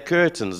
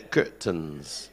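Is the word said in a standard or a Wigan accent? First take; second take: standard; Wigan. First: The word is said in a standard accent. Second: The word is said in a Wigan accent. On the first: This is how people outside Wigan say it. "they don't say curtains" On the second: This is how people in Wigan say it. "in Wigan, they say curtains"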